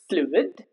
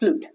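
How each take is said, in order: First: Both the u and the i are sounded. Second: The i is silent after the u. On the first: The speaker calls it right. "U is also pronounced and I is also pronounced" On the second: The speaker calls it wrong. "It's not pronounced fluid"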